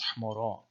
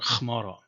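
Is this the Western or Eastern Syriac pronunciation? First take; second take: Western; Eastern. First: It is said with Western Syriac pronunciation. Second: It is said with Eastern Syriac pronunciation.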